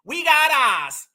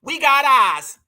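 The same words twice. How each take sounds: First: "We got eyes" slowed right down in a mocking Massachusetts accent; drawn-out Massachusetts accent mockery; exaggerated Massachusetts accent. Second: Imitating her Massachusetts accent on "We got eyes"; quick mock of a Massachusetts accent. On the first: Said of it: "Listen to the Massachusetts accent". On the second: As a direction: lightly mimic her Massachusetts twang on "got". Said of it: "Listen to that Massachusetts accent".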